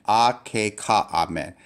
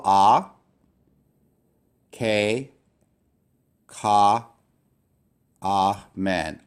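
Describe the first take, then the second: First: "Ah, K, Ka, Amen" run together smoothly as one word; syllables joined. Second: "ah, K, Ka, Amen" split apart with long pauses between each syllable. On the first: Teacher blending the word for the class. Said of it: "That's how you divide". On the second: Teacher to class, sounding out each syllable. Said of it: "So here is one syllable". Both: Shown as a demonstration.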